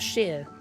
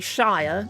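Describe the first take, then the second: First: The word sounds like sheer. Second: The word rhymes with fire. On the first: "it's Sheer" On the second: "We don't say Shire"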